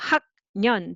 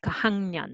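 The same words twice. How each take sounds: First: It is read exactly as spelled. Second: It is said the natural spoken way. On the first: "this is spelling" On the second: "but sounds like"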